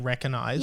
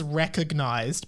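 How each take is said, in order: First: The G sound is left silent in the word. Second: The G sound is pronounced in the word. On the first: "some people just say recognised" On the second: "I guess it is recognised"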